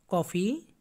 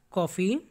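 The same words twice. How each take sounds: The two takes are said the same way.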